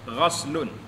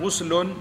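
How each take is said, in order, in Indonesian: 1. Vokal pertama berbunyi a. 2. Vokal pertama berbunyi u. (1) "dibaca dengan baris di atas ghain itu terlebih fasih" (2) "dibaca dengan baris hadapan ghuslun"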